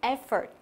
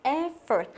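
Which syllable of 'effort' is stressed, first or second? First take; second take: first; first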